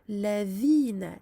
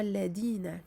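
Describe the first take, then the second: First: The middle consonant is a soft 'th' sound. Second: The middle consonant is a hard 'd' sound. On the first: The speaker calls it right. "Ladhina et non pas ladina" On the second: The speaker calls it wrong. "et non pas ladina, comme beaucoup disent"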